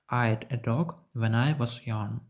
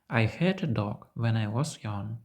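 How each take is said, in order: First: The word had is contracted onto I. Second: The word had is said in full. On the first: The speaker calls it wrong. "для носія американської мови це неправильно" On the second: The speaker calls it right. "Носій американської мови сказав би"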